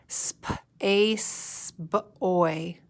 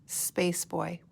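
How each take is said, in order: First: Put-on "Space boy" stretched out sound by sound; sp, ace, b, oy: "Space boy" in slow separate chunks; slowly sounded out. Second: Said in the usual way. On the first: Shown as a demonstration. Teacher running a finger under the word, slowly sounded out. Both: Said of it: "say it slowly".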